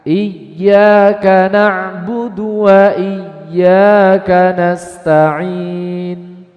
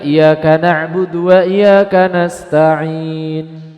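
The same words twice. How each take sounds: First: The y sound is pressed and held doubled. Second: The y sound is short and not doubled. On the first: The speaker calls it right. "Ini dibaca ditekan" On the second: The speaker calls it wrong. "menghilangkan tasydid"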